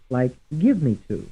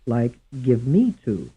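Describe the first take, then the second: First: The stress falls on the word give. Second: The stress falls on the word me. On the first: "Some will be stressed on the first syllable" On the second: "Some stressed on the second syllable"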